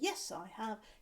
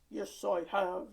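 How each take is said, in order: First: It is said in a normal speaking voice. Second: It is said in a low, grumpy voice. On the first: "have you bought your speaking voice?" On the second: "Have you have you bought your grumpy voice?"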